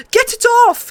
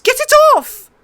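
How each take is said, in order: First: High, loud shriek of pain; screaming in pain. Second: Even higher, louder shriek; louder screaming in pain. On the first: Prince shrieks as the wolf mauls him. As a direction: shriek as if the wolf has your arm. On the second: Prince shrieks again under the wolf. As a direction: scream harder, in full panic. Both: A narrator's reading. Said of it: "he screamed".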